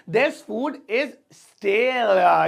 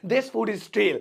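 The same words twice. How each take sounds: First: Stretched out word by word; very slow model sentence. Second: Said in the usual way. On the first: Shown as a demonstration. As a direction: dictate it slowly for the class. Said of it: "slow repeated model sentence". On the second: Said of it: "first take at normal pace".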